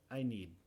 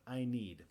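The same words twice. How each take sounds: First: The final d is held without being released. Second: The final d is clearly and fully released. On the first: The speaker is talking casually without thinking. "si lo digo sin pensar ... en realidad no hago el sonido de" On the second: The speaker is enunciating carefully. "Si queremos enunciar, claro, vamos a decir I need"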